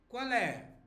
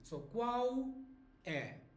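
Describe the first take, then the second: First: The L links straight into the following vowel. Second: The words are separate and L sounds like U. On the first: "some people may make a liaison here" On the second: "when you say the separate, remember L sounds like U"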